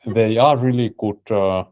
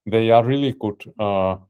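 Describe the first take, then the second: No difference in how they are said.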